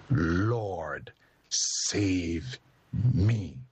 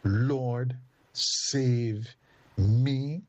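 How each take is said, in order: First: Low, sinking plea to the Lord; a hint of a drowning man begging; Peter's plea. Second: Rising cry, loudest on me; powerful prayer. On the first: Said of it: "Isn't that a powerful prayer?". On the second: Shown as a demonstration. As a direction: call it out with growing force. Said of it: "a powerful prayer".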